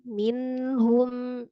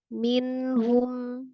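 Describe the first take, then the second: The two takes are said the same way.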